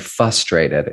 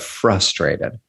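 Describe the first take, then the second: First: The first r sound is dropped. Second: The first r sound is kept. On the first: The speaker calls it wrong. "does not like the word when people say frustrated" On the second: The speaker calls it right. "instead mm. of frustrated"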